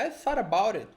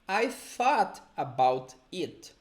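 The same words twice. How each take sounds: First: The sentence is said quickly and run together. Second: The sentence is said slowly and clearly.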